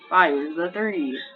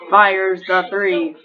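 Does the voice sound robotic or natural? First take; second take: natural; robotic. First: It is said in a more natural voice. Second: It is said in a flat robot voice.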